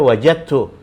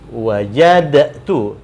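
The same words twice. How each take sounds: First: The d merges fully into the following t. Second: The d is heard separately before the t. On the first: This is how it is read aloud. "tapi dibaca wajadtu ya, idghamkan ini ke sini" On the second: This is how it is written. "tulisannya begini wajadtu"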